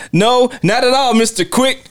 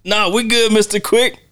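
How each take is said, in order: First: Much higher, squealing fake politeness; mock Tommy. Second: Much higher, sing-song fake politeness; mock Tommy. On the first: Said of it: "Tommy's like". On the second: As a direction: pitch it high and sweet for Mister Quick. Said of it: "every time he says ... that little laugh".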